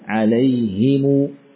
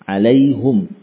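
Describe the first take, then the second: First: An i vowel after h, m followed by long u. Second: A u vowel after h, ending on silent m. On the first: "Tidak disukun mimnya, namun dibaca dengan harakat dhammah, kemudian ada yakni mad setelahnya" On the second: "Bidhammil ha"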